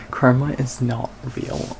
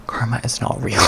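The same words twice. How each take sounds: First: Said slowly, leaning on "Karma"; slow emphatic. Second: Breathy whisper, barely voiced. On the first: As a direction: spell out "Karma is not real" deliberately. Repeating the punchline firmly. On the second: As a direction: let it slip out as a secret. Repeating the punchline quietly. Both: Real, not acted.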